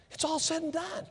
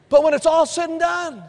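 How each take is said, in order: First: All said and done, dropped softer like an echo. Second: All said and done, called out high and loud; loud proclamation. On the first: Pastor repeating his point to the church, suddenly soft. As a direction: let all said and done fall quietly. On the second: Pastor preaching to his church, high and loud. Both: Shown as a demonstration.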